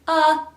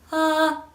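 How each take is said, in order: First: The vowel starts with a sharp catch. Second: The vowel starts cleanly, without catch or breath. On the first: The speaker calls it wrong. "first glottal" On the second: The speaker calls it right.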